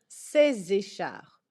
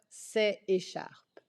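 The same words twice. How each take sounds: First: A Z sound links the two words. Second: No Z sound links the two words. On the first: The speaker calls it right. "il faut faire la liaison" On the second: The speaker calls it wrong. "et non pas"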